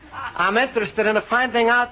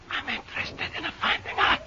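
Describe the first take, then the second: First: It is said very loudly. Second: It is said very quietly.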